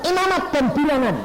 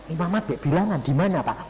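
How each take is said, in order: First: High, loud disbelieving "Imamat dan Bilangan?"; preacher echoing God's reading order in disbelief; surprised echo. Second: Said in the usual way. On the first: Retold or imitated.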